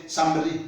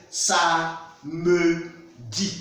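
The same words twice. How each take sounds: First: "somebody" run together, middle e dropped; wrong pronunciation. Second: "sa, me, di" in three separate syllables; middle e pronounced. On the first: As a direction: say "somebody" as a quick samdi, skipping the middle vowel. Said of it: "We don't say somebody". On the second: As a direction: sound the e in "me" of "sa, me, di" fully. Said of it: "We pronounce it". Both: Shown as a demonstration.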